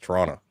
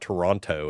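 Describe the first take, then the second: First: It is pronounced the way locals say it. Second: It is pronounced the way outsiders say it. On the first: The speaker is from the city. The speaker calls it right. "It's Toronto" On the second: The speaker is not from the city. The speaker calls it wrong. "you don't say you're from Toronto"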